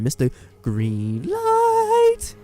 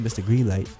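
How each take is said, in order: First: The I is stretched out, from the diaphragm. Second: It is said plainly, without stretching.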